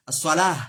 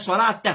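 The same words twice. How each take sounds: First: "As-salah" ending in a breathed h, no t; final h sound. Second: "salat" ending on a hard released t; pronounced final t. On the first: Teacher showing the pausal form, final h in "As-salah". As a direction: let "As-salah" end on ha. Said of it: "Nous tiens ha". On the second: Teacher showing what not to say, hard t in "salat". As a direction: finish "salat" with an audible t. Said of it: "on va dire salat". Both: Shown as a demonstration.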